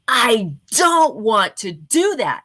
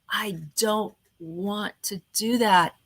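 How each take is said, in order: First: It is said in a lively, energetic voice. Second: It is said in a flat, dry voice. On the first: The speaker calls it right. "I tend to prefer" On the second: The speaker calls it wrong. "it's kind of boring, it's kind of dry"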